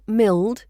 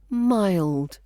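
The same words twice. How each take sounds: First: The vowel is a single plain vowel. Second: The vowel glides as a diphthong. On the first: The speaker calls it wrong. "mild is not mild" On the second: The speaker calls it right. "We've got a diphthong in there"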